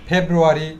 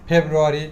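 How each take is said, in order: No difference in how they are said.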